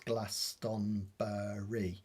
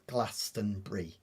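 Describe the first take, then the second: First: The word is said with four syllables. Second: The word is said with three syllables. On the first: The speaker calls it wrong. "pronounce Glastonbury as um, four four syllables" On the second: The speaker calls it right. "but really it's three syllables"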